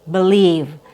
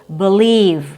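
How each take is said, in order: The two takes are said the same way.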